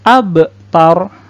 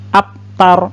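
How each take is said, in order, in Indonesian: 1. Bunyi b dipantulkan dengan lepasan. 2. Bunyi b berhenti datar tanpa lepasan. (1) "Yang benar abtar" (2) "itu salah"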